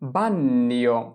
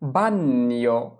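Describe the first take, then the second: No difference in how they are said.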